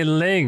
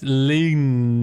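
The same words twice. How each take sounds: First: "ling" as an English syllable ending in ng; "ling" with no extra vowel after it; plain "ling" ending. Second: "ling" drawn out as lee-nyeh; "ling" in two syllables, leen-yeh; corrected "ling" ending. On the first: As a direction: say "ling" to rhyme with sing. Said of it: "it doesn't say ling". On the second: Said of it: "it doesn't say ling. It's ling". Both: Shown as a demonstration.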